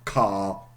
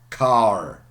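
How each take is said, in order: First: It is said without the final R sound. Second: It is said with the final R sound. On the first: "so a Brit"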